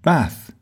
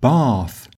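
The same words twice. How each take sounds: First: The vowel in bath is short, like trap. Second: The vowel in bath is long and open. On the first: "with the same short a sound" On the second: "with a long r sound"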